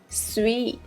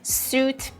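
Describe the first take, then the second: First: The vowel is a long ee sound. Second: The vowel is an oo sound. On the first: The speaker calls it right. "a rather long E sound here we have" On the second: The speaker calls it wrong. "Number thirteen is not suit"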